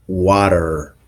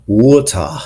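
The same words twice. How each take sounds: First: "water" with a pronounced final R; American R ending. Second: "water" ending in "ah", no R; British non-rhotic R. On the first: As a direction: end "water" on a clear American R. American sample before British contrast. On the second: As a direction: drop the R of "water" for an ah. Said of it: "the R at the end of words isn't pronounced". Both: Shown as a demonstration.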